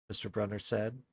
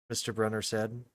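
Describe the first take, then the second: The two takes are said the same way.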